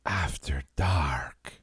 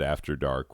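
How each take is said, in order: First: Slow, creepy whispered title. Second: Said in the usual way. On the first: Acted. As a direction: breathe it out slowly and creepily. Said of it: "was seriously creepy". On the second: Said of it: "the way you said".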